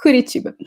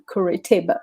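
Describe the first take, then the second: First: It is said with a Portuguese accent. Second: It is said with an English accent.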